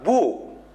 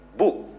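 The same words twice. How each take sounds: First: The vowel is said long and drawn out. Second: The vowel is said short and clipped. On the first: The speaker calls it wrong. "tidak terlalu panjang, bukan mengatakan" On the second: The speaker calls it right. "Ini dikatakan the short vowel"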